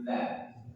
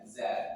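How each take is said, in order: First: The consonant is a soft th sound. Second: The consonant is a buzzing z sound. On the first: The speaker calls it right. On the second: The speaker calls it wrong. "Kalau dia terlalu mundur nanti di za"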